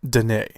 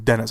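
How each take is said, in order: First: The name is not said like English 'Dennis'. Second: The name is said like English 'Dennis'. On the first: The speaker calls it right. "I believe it's pronounced uh, Denis, because he's not American" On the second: The speaker calls it wrong. "I've been saying his name Dennis. It's not Dennis"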